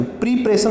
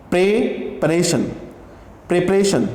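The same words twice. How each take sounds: First: प्रिपरेशन said with an ई in the first syllable, "pri-pa-ray-shun"; the incorrect way to say प्रिपरेशन; wrong pronunciation. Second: The correct way to say प्रिपरेशन; correct pronunciation. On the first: Teacher showing students the wrong प्रिपरेशन. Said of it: "प्रिपरेशन नहीं कहते हैं इसको". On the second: Teacher modelling the right प्रिपरेशन for students. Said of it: "प्रिपरेशन बोलेंगे इसको". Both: Shown as a demonstration.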